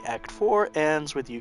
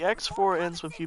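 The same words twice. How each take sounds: First: It is read more slowly. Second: It is read very quickly. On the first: The speaker calls it right. "let me read that slower" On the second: The speaker calls it wrong. "I was clearly going a mile a minute there"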